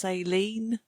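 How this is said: It is said in an American accent.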